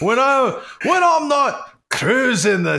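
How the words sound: It is said in a put-on Scottish accent. "I'm trying to make like a whale noise in a Scottish accent"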